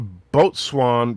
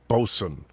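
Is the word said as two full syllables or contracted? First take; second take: two syllables; contracted. First: It is said as two full syllables, boat-swain. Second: It is said contracted, as bo-sun. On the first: "It's a boat swan" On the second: "but pronounced bosun"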